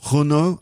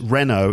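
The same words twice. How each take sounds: First: The name is pronounced with French sounds. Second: The name is pronounced with English sounds. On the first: "in French Renault, I think it is" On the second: "we do say in English Renault"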